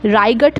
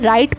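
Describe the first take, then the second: First: It is said with a g sound before t. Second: It is said with no g sound before t. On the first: The speaker calls it wrong. "राइगट नहीं पढ़ूंगी" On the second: The speaker calls it right. "राइट पढ़ूंगी"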